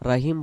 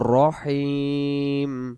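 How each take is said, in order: First: The vowel after r is an open a. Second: The vowel after r is a rounded o. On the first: The speaker calls it wrong. "রাহিম বললে উচ্চারণ ভুল হয়ে যাবে" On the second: The speaker calls it right. "উচ্চারণটা করব বিসমিল্লাহির রহমানির রহিম"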